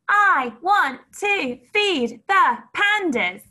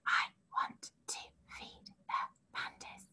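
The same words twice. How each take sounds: First: The sentence is shouted loudly. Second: The sentence is whispered softly. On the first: "Can you shout it?" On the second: "Can you whisper it?"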